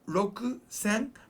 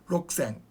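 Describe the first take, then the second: First: The u sound after k is clearly pronounced. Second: The u sound after k is dropped. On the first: "it is Rokusen" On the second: "Japanese kind of say it fast. It becomes like the U sound disappears"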